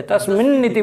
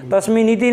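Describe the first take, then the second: First: तस्मिन् इति said as तस्मिन्न् इति with the n held long; तस्मिन् इति with a lengthened, doubled n. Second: तस्मिन् इति said with a short single n, no doubling; तस्मिन् इति with a plain single n before इति; wrong way, single n. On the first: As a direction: hold the final n of तस्मिन् into इति. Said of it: "तस्मिन् इति बोलते". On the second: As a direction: say तस्मिन् इति with the n released once, not held. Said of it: "तस्मिन् इति नहीं बोलते". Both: Shown as a demonstration.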